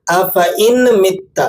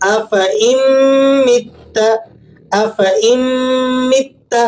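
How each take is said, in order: First: افئن مت with a nasal n sound in the middle; wrong reading. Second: افئن joined to مت with nasal ghunna, no ن; افئن rising, pause, مت higher; correct recitation. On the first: Teacher imitates the common error, slow mistaken reading. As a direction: say افئن مت with a clear ن, slowly. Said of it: "اس طرح سے پڑھیں گے". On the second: Teacher models the right reading, measured recitation. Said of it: "کس طریقے سے؟". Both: Shown as a demonstration.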